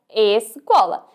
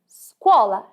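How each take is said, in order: First: The word starts with an added e sound. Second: The word starts directly with the s sound. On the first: The speaker calls it wrong. "e não escola" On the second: The speaker calls it right. "Dizemos scuola"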